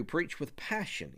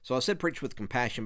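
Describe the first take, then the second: First: Passion said slow and soft with weight on preach; slow down and lean on preach in preach with passion; stressed slogan. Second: Said in the usual way. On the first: Shown as a demonstration. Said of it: "number two, preach with passion". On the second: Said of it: "but then number two".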